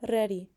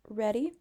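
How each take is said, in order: First: The R is rolled with a trill. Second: The R is a plain English R. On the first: "like she's rolling her R's" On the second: "normal R would sound like ready"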